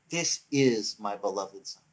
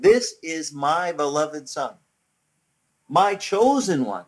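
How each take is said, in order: First: Low, slow, subdued declaration; understated voice of God. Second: Slow, projected divine proclamation; voice over a loudspeaker. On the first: Preacher closing on God's words from heaven, understated slow declaration. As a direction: say it slowly and lower, with restraint. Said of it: "why would that voice from heaven cry". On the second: God's voice from heaven over the loudspeaker, slow proclamation. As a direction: announce it big, stretching each word. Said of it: "over the loudspeaker said". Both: Retold or imitated.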